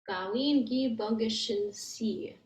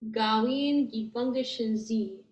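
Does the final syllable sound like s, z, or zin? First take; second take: s; z. First: The final syllable begins with a hissing s sound. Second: The final syllable is a buzzing z, no n. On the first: The speaker calls it wrong. "try and say it with the C. It doesn't work very well" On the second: The speaker calls it right. "that S is going to turn into a Z, and the N, the sound kind of falls off"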